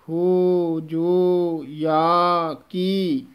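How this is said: Each word is said separately. The speaker calls it right. "ਵੱਖਰਾ ਪਾਠ ਕਰਨਾ ਹੈ"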